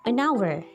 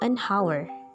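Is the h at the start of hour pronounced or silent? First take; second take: silent; pronounced. First: The h in hour is silent. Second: The h in hour is pronounced. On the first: The speaker calls it right. "jadi kita mengatakan an hour" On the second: The speaker calls it wrong. "tidak mengatakan an hour"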